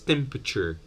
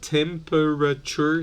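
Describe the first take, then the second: First: A schwa and an r sound are dropped. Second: Every syllable of the word is pronounced.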